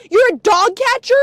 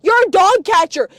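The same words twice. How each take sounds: First: "You're a dog catcher?" loud, rising at the end; mocking question. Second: "You're a dog catcher." shouted, falling at the end; jeering statement. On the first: Mock questioning of absent relative. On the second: Acted. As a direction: declare "You're a dog catcher." as a loud verdict. Repeats question as jeering statement.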